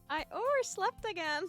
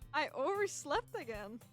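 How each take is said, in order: First: It is said in a high-pitched voice. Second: It is said in a normal voice.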